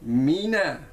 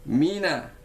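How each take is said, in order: Both takes have the same delivery.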